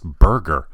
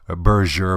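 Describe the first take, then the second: First: The name is said like the English word burger. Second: The name is said with a French-style pronunciation. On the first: It reflects that the company is American. The speaker calls it right. "It's actually pronounced burger" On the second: It suggests the company is French and fancy. The speaker calls it wrong. "I've actually heard people pronounce this as Berger"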